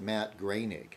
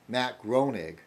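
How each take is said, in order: First: The surname's first vowel sounds like 'ay'. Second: The surname's first vowel sounds like 'oh'. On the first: The speaker calls it right. "but he pronounced it Matt Groening. The O E is A" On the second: The speaker calls it wrong. "it looks like Groening"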